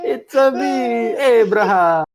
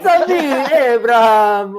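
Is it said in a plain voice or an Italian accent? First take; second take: Italian accent; plain. First: It is said in an Italian accent. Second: It is said in a plain, normal voice.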